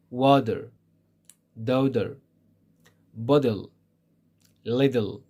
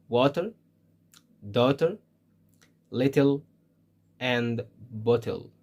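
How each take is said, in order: First: "Water, daughter, bottle, little" with T tapped like D; American D-like T. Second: "water, daughter, little, and bottle" with a crisp T in the middle; British clear T. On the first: Teacher lists American examples, "Water, daughter, bottle, little" with D sounds. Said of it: "This is in American English". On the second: Teacher lists British examples, "water, daughter, little, and bottle" with clear T. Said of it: "in British English, it's T". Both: Shown as a demonstration.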